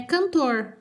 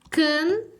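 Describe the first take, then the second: First: Said in the usual way. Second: CANTOR split as "cannn... tor", first part higher; syllable by syllable. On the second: Shown as a demonstration. Sounding out a word while writing. (cantor ditado sílaba por sílaba)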